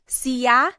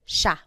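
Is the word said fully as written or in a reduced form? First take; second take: full; reduced. First: Every written sound of the word is said fully. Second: The word is said in its shorter everyday form. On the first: "it looks like it should be pronounced siya" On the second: "it's usually pronounced siya"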